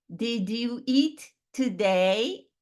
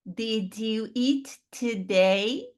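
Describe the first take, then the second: Both takes have the same delivery.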